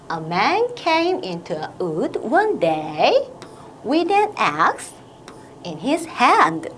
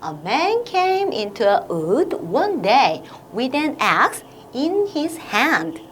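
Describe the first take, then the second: First: The sentence is split into short chunks with pauses. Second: The sentence is read in one long breath. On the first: "의미가 있는 덩어리로 끊어읽기" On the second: "한 번 더 긴 호흡으로 가볼게요"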